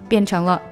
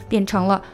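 Both takes have the same delivery.

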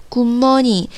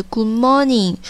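No difference in how they are said.

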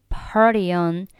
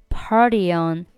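Both takes have the same delivery.

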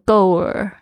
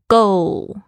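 First: The word ends with a curled R-like sound. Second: The word ends with a clear L sound. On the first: The speaker calls it wrong. "很多同学呢会不小心卷起来，就变成go 耳" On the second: The speaker calls it right. "它是目标goal"

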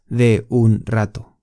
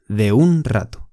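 First: The words are said separately, without linking. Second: The words are linked smoothly into one another. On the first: The speaker calls it wrong. "不是de un rato" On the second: The speaker calls it right. "是de un rato"

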